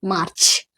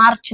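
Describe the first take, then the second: First: Lower, softer मार्च, "maach" with hardly any r; dropped-r pronunciation. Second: मार्च with the r sounded; full-r pronunciation. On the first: Teacher modelling March without the r, dropped-r pronunciation. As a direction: let the r melt away in मार्च. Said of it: "थोड़ा सा र पूरा नहीं बोलना है". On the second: Teacher showing what to avoid, full-r pronunciation. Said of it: "र नहीं बोलना". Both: Shown as a demonstration.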